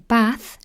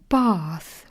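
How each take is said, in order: First: The vowel is a short, flat A. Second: The vowel is a long A sound. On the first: "I say bath with a flat A" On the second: "others say bath with a long A sound"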